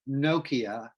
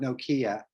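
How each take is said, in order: First: The stress is on the first syllable. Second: The stress is on the second syllable. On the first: The speaker calls it right. "no, Nokia" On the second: The speaker calls it wrong. "not Nokia. IKEA is a store"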